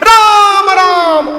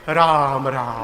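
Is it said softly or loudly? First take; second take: loudly; softly. First: It is said loudly, at high volume. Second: It is said softly, at low volume.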